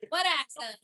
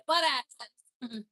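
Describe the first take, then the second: First: Said in the usual way. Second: What accent? drawn out very slowly in a thick Rochester accent; joking denial in a thick Rochester accent. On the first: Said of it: "we both lost our Rochester accents". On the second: Shown as a demonstration. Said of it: "It's thick".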